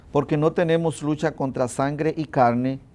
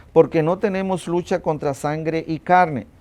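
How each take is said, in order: The two takes are said the same way.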